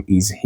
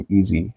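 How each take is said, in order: First: Said in the usual way. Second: "is he" run together as "izee"; dropped H. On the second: Shown as a demonstration. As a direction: link "is he" with a silent H, like "iz-ee". («is he» پیوسته و بدون صدای H، مثل «ایزی»)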